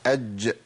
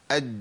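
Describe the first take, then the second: First: "أج" with the closing jeem released in a small bounce; with qalqalah. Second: "أج" cut off on the jeem with no bounce; no qalqalah. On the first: Teacher correcting the still jeem, "أج" with an echoing qalqalah release. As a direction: let the jeem in "أج" pop open briefly after the stop. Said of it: "لابد من القلقلة". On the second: Teacher showing the still jeem before qalqalah, "أج" without a bounce. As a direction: say "أج" with the closing jeem held shut, unreleased. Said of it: "طيب ما فين القلقلة؟". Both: Shown as a demonstration.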